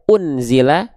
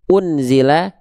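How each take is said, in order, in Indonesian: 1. Bunyi n dilafalkan dengan jelas dan tegas. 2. Bunyi n dilafalkan dengan jelas dan tegas.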